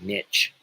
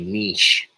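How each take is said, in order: First: It is said the way Americans say it. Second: It is said the way Europeans say it.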